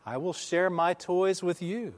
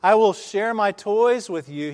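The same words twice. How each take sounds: First: High but softened answering call; imitated echo reply. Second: High, loud call; boy calling out across the valley. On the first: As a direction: play it as a fainter echo. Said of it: "the voice came back". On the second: Retold or imitated. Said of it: "he called out".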